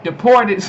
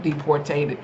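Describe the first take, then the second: First: "deported" said right, a bit louder; corrected to deported. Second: Softer "deportated" with an extra syllable; mispronounced deportated. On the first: Correcting herself to viewers, "deported" said right. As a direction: fix it to a clean "deported". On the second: Retelling the news, tripping over "deportated". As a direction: stumble into "deportated". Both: Real, not acted. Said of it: "sorry, y'all, deported".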